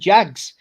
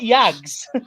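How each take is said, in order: First: The name begins with a 'j' sound. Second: The name begins with a 'y' sound. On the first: The speaker calls it right. "His nickname's fucking Jags" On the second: The speaker calls it wrong. "Not Yags"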